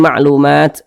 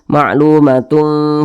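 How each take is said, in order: First: The word ends in t and the reading stops. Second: The word ends in -tun and flows onward. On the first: The reader pauses at the stop sign. "mau berhenti di sini ma'lumat, ah, boleh" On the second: The reader continues without pausing. "Tidak berhenti, kita lanjutkan"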